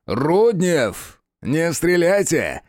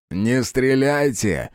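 First: Higher, slow, imperious order; sharp command. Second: Said in the usual way. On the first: A narrator's reading. Official stopping Rudnev from shooting, imperious. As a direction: command them to hold fire. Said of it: "резко приказал ... повелительный голос". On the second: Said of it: "повторил он".

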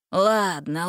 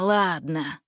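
First: Resigned sigh, rising; sighing give-in. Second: Lower, fading sigh; resigned sigh. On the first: Villain giving in to Gretel, sighing. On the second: Villain giving up, a lower sighing repeat. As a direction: let the word sink with a sigh. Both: A narrator's reading. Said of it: "вздохнул Карабас".

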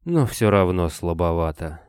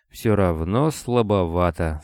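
First: Said in the usual way. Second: Slow, mock-regretful sigh. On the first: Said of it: "невозмутимо одобрил Строев". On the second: A narrator's reading. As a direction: say it with feigned regret. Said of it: "с сожалением сказал Строев".

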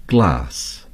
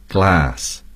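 First: "glass" said the British way with a long broad a. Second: "glass" said with the flat American a. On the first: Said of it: "The British would say". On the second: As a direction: give "glass" the short American vowel. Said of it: "Americans would say". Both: Shown as a demonstration.

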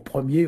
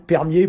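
First: Said in the usual way. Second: "permier", with per- in place of pre-; Gallo metathesis. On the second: Shown as a demonstration. Teacher gives another Gallo example, R shifted in "permier". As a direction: say "permier" with the R closing the first syllable. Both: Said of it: "permier pour premier aussi".

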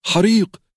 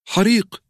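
First: حريق yelled very high and loud; distant crowd yelling; shouting. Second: حريق yelled even higher; frantic yell; shouting. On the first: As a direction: raise the alarm. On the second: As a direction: keep sounding the alarm. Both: A narrator's reading. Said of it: "أصوات تهتف".

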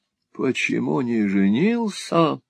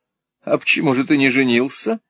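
First: Slow, drawn-out echo, falling at the end; echoing husband. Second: Lightly teasing question, lifted at the end; playful. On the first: Husband echoing wife's teasing, slow and falling. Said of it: "отозвался супруг". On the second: Wife teasing her husband, playfully. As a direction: ask it with a playful rise. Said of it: "игриво спросила мадам". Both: A narrator's reading.

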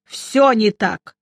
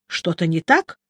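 First: Slow, grumpy drawn-out answer; grumbling. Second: Mildly alarmed question, rising at the end; frightened. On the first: Old magister answers his worried companion, grumbling. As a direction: grumble it heavily, stretching the first word. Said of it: "буркнул Нуфлин". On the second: Narrator asks the stricken old man, a touch frightened. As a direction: ask with restrained worry. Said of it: "испуганно спросил я". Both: A narrator's reading.

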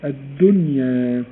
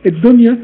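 First: الدنيا said slowly, nun kept clear before the ya; slow careful الدنيا, nun not merged; correct dunya. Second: الدنيا with the nun merged into the ya, said louder with a laugh; laughing wrong الدنيا, nun swallowed into ya. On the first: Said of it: "أديكم مثال زي كلمة الدنيا". (الدنيا ببطء والنون واضحة بلا إدغام) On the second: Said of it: "آه، أدغمنا". (الدنيا بإدغام النون في الياء مع ضحكة) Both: Shown as a demonstration.

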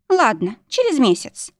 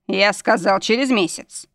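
First: Higher, eager giving-in; hasty agreement. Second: Mild growl of command; growled insistence. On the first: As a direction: give in at once, pitched up. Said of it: "торопливо закивала Дженни". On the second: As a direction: insist firmly, like a man in charge. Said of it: "рыкнул наш настоящий мужчина". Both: A narrator's reading.

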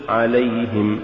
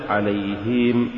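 First: عليهم with a short clean kasra; correct. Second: عليهم with the vowel stretched, slow and soft; wrong drawn-out عليهم; faulty. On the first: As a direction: say عليهم crisply. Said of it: "قل". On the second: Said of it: "ولا تقل". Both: Shown as a demonstration.

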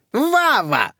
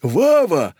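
First: High squeal of the name. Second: High, louder call of the name; shouting. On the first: Old lady squeals at her nephew, high squeal. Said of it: "взвизгнула Зюка". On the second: Second old lady shouts his name, loud. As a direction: call out to him. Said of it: "закричала Кока". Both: Acted.

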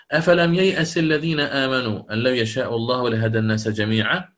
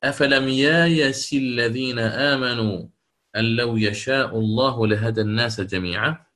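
First: ييأس recited with the hamza; original reading. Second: ييأس recited as يايس with a long alif; Bazzi reading. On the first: (ييأس بالهمزة في التلاوة) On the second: (ييأس تقرأ يايس بالألف) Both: Shown as a demonstration. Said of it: "كيف سيقرأها".

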